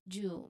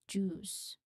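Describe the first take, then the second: First: The word ends with a soft buzzing z sound. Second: The word ends with a distinct hissing s sound. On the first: The speaker calls it wrong. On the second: The speaker calls it right. "it ends with distinct S sound"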